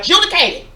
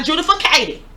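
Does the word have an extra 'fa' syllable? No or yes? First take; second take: no; yes. First: The word has no extra 'fa' syllable. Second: An extra 'fa' syllable is inserted mid-word. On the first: The speaker calls it right. "We are adjudicating" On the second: The speaker calls it wrong. "not adjudicating"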